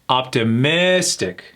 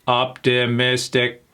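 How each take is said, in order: First: It is said naturally, stressing the third syllable. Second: It is said flat and robotic, syllables even. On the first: "it's a third syllable" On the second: "Let me say it like a robot"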